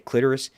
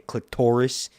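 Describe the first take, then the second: First: The word does not rhyme with Dolores. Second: The word rhymes with Dolores. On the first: The speaker calls it wrong. "you don't say clitoris" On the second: The speaker calls it right. "It rhymes with Dolores and Doris"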